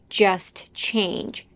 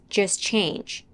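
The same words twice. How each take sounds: First: The T at the end of 'just' is pronounced. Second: The T at the end of 'just' is dropped. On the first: "She doesn't say" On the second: "The only sounds that are dropped here are the T in just"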